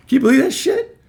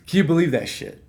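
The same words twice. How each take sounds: First: High, loud disbelief; can you believe it, outraged; incredulous. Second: Said in the usual way. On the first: Real, not acted. Telling audience about the boss, loud and incredulous.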